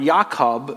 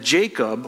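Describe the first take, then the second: First: The name has a Hebrew pronunciation. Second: The name has its usual English pronunciation.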